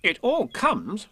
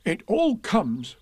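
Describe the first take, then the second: First: High, slow, stern reproof; stern Rabbit. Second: High, slow, cross complaint; cross Pooh. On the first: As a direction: scold sternly, word by word. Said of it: "said Rabbit sternly". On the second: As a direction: grumble crossly, stretching the words. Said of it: "said Pooh crossly". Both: A narrator's reading.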